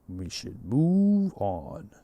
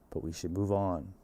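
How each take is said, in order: First: It is said in a deep movie-trailer voice. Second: It is said in his normal voice.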